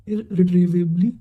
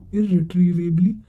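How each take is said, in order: Both takes have the same delivery.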